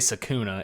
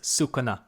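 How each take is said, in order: First: The first vowel sounds like 'a'. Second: The first vowel sounds like 'u'. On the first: The speaker calls it wrong. "So don't say Sakuna" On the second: The speaker calls it right. "It's Sukuna"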